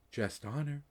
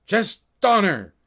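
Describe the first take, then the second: First: Whispered. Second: Loud, high call of his name; a sudden loud yell from the orb. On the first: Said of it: "it whispered". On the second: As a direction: shout to break his focus. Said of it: "the image in the orb yelled". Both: Acted.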